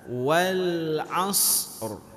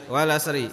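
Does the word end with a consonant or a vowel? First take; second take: consonant; vowel. First: The word ends on a bare consonant. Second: The word ends with an added vowel sound. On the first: The speaker calls it right. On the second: The speaker calls it wrong.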